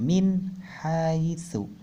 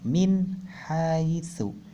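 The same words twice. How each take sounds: First: The n sound is short and clear. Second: The same.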